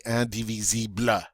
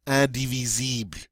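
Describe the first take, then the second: First: "indivisible" with an added "luh" at the end; wrong "bluh" ending. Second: "indivisible" stopping on a light L, no "bluh"; ending on L. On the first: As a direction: tack a vowel after the L in "indivisible". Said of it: "we do not say". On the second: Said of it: "actually end on the L sound". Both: Shown as a demonstration.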